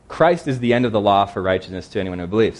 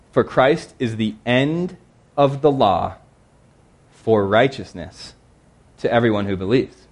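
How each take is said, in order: First: Said in the usual way. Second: Slow scripture reading. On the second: Acted.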